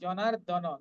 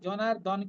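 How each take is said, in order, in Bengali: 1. শেষের n-এর পরে একটি স্বরধ্বনি থাকে। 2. শেষের n উচ্চারিত হয় কোনো স্বরধ্বনি ছাড়া। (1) "নটা পূর্ণ" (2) "জনার্দন কিন্তু নয়"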